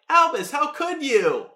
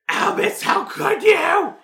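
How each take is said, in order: First: It is said calmly, without screaming. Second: It is screamed in a shrill, loud voice.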